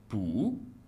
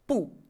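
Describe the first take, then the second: First: The syllable has a rising tone. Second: The syllable has a falling tone. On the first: "se prononce ainsi pou au deuxième ton" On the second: "Pou au quatrième ton"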